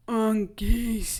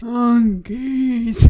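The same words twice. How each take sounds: First: Mild delirious moan; dazed moan. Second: Loud delirious moaning cry; Peeta, half-paralysed, moans the word loudly; louder dazed moan. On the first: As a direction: mumble it half-conscious. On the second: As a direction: groan it out, still dazed. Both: Retold or imitated. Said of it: "kind of moaning".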